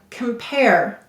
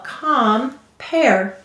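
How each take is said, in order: First: The first syllable has a reduced vowel. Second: The first syllable is a full 'calm'.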